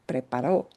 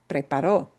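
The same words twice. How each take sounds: No difference in how they are said.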